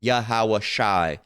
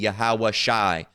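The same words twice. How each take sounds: No difference in how they are said.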